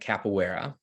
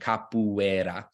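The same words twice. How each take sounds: First: It is said with an American English accent. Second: It is said with a Brazilian Portuguese accent. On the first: "more American accent" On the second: "rough pronunciation"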